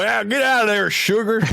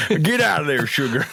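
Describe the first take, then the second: First: Put-on repeating the line in an even bigger Southern accent; thick Southern accent. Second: Higher mock Southern accent; scolding the sugar in a hammed-up Southern accent. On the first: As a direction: lay the Southern accent on thick and shoo the sugar. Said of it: "a deep Southern accent". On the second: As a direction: shoo the sugar away in a put-on Southern accent. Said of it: "we always turn Southern".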